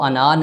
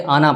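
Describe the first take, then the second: First: The final vowel is drawn out long. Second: The final vowel is short, alif silent. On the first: The speaker calls it wrong. "अना नहीं" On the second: The speaker calls it right. "ये अलिफ जो है ये साइलेंट समझ लें इसको"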